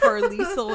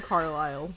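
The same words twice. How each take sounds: First: Carlisle as "car-LEE-sul"; misread pronunciation. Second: Carlisle as "car-LYLE", silent s; correct pronunciation. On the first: Host summing up her misreading, misread pronunciation. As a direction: say Carlisle with the s sounded, three syllables. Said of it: "I read it as". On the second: Host summing up the real name, correct pronunciation. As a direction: say Carlisle to rhyme with "mile". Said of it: "I didn't read his name as". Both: Shown as a demonstration.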